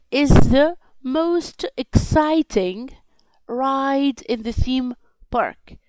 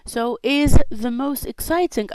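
First: Slow, deliberate reading for the class; slow model reading. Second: Said in the usual way. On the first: Shown as a demonstration. Teacher reads the example slowly to pupils. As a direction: spell each word out slowly for learners. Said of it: "teacher models the sentence slowly". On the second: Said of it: "teacher repeats the sentence normally".

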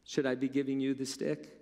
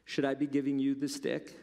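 First: "you" stressed and pointed. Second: "be" lifted and leaned on; stress on be. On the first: Preacher turns the question on the listener, stress on "you". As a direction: hit the word "you" at the listener. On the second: Preacher asks the congregation, weight on "be". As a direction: push the word "be". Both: Shown as a demonstration.

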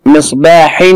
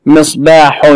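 First: مصباح ending in a clear "-in"; kasr tanween. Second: مصباح ending in a clear "-un"; damm tanween. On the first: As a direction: say مصباح as "misbaahin", with kasr nunation. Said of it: "تنوين بالكسر". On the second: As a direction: say مصباح as "misbaahun", with damm nunation. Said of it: "تنوين بالضم". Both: Shown as a demonstration.

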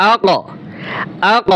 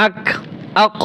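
First: "আ ক" with the ক released in a bouncing echo; correct qalqalah. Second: "আক" cut dead on the ক, no echo; qalqalah left out. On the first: Teacher correcting the mistake, "আ ক" with qalqalah echo. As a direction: rebound off the ক in "আ ক" into a short extra sound. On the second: Teacher showing students the mistake, "আক" without echo. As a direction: stop "আক" on a bare k without the bounce. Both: Shown as a demonstration. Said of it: "এভাবে না".

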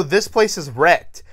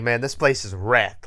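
First: Higher, louder, lifting at the end on wrecked; mocking quote. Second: Said in the usual way. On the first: Mocking the characters' line before the button fixes everything. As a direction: repeat it as if it's ridiculous. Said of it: "they go". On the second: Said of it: "And they're like".

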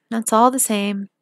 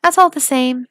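First: Said in the usual way. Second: Emphatic. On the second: A narrator's reading. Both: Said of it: "nodded her head and said".

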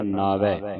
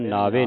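First: ਨਾਵੈ ending in an open "vai"; open final vowel. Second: ਨਾਵੇ ending in a close "vay"; close final vowel. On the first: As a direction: say ਨਾਵੈ as "naavai", dulavan sound. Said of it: "ਦਲਾਵਾਂ ਲੱਗੀਆਂ". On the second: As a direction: say ਨਾਵੇ as "naavay", single-lavan sound. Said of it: "ਬਿਨ ਨਾਵੇ ਨਹੀਂ ਪੜਨਾ". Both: Shown as a demonstration.

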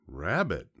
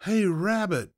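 First: Said in the usual way. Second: High, loud call from outside; yelled call. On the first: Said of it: "thought the fox". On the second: A narrator's reading. Someone outside calling at the fox's door, yelling. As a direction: holler it up to reach indoors. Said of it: "someone yelled from outside".

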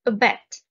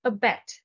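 First: Abet with stress on the second syllable, loud; stress on BET. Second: Abet repeated calmly, stress on BET. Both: Shown as a demonstration. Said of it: "The stress is on the second syllable".

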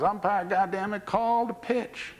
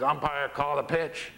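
First: Mock yell. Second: Slow, evenly voiced request; catcher's measured demand. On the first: Catcher to rookie umpire who won't call, high mock yell. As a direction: demand it as a fed-up catcher, stretching the last words. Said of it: "now Etcheverron yells". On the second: Catcher to rookie umpire waiting on a call, measured demand. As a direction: prompt the umpire slowly, without yelling. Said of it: "Etcheverron says".

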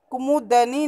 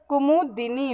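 First: कुमुदनी with "da" before the final "nee"; no i-sound after the d in कुमुदनी; wrong pronunciation. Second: कुमुदिनी with a short "di" before "nee"; correct pronunciation. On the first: Teacher rejects the faulty form, कुमुदनी said with "da-nee". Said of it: "नहीं होता". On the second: Teacher corrects pupils' spelling, कुमुदिनी said with "di-nee". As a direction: sound the i after d in कुमुदिनी. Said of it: "द में छोटी की मात्रा". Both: Shown as a demonstration.

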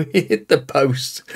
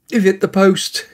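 First: Said in the usual way. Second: Excited exclamation. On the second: Real, not acted. Free kick hits the post.

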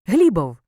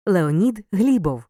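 First: Said in the usual way. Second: Леонід Глібов said slowly, with a falling stress on Глібов; slow emphatic answer Леонід Глібов; slow, stressed name. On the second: Shown as a demonstration. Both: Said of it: "отримаєш прізвище".

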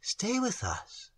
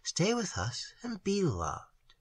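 First: Slow, soft and higher; tender plea. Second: Slow, soft, lingering on loved; soft tender plea. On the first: Maiden tenderly begging the stranger to stay. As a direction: coax him gently to stay. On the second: Maiden softly pleading with the stranger to stay. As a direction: ask so softly he can't refuse. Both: A narrator's reading. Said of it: "looked into it tenderly".

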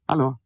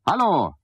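First: Said in the usual way. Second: High, loud impatient hallo; raised, insistent call; louder call. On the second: Acted. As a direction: call out sharply into the void. Calling again, louder.

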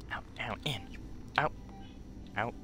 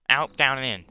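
First: Low, soft list of steps; hushed plan rehearsal. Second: Loud, firm list of steps; loud plan rehearsal. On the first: Player sneaking through escape moves, hushed. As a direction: murmur the steps to yourself. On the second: Player rehearsing escape moves, loud and firm. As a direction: call the steps out loudly. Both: Real, not acted.

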